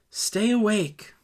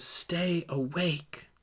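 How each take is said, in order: First: Higher and emphatic, slow; firm urging. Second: Soft, slow, drawn-out request; quiet plea. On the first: Leader repeating the command to disciple, firm urging. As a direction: press the command home. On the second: Leader quietly urging disciple, soft slow plea. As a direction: breathe the words gently. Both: Acted.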